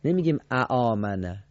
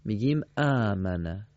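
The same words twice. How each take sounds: First: اآمنه with the short vowel sounded before the long; wrong reading. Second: آمنه with one long aa, no extra fatha; correct reading. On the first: Teacher demonstrates the wrong reading اآمنه. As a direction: read اآمنه the wrong way, fatha then alef. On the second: Teacher gives the correct reading آمنه. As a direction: say آمنه smoothly with a single long vowel. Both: Shown as a demonstration.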